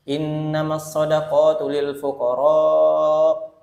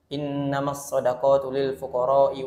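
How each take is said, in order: First: The vowel in fuqara is drawn out long. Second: The vowel in fuqara is held only briefly. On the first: The speaker calls it right. "minimal bacaannya harus empat sampai lima harokat" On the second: The speaker calls it wrong. "membaca dengan panjangnya cuma dua harokat atau satu alif"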